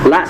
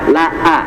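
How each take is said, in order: First: The vowel is short, one beat. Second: The vowel is stretched to two beats. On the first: "la satu harokat" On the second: "dua harokat berarti tinggal tambah panjang vokalnya"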